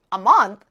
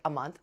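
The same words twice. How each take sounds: First: Loud, shocked "A month?"; acted-out outraged surprise; incredulous echo. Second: Said in the usual way. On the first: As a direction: throw it back in loud disbelief. Shocked echo of his answer.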